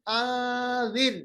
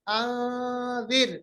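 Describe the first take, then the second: First: The n is hidden as a light nasal hum. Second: The same.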